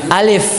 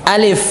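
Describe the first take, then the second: The two takes are said the same way.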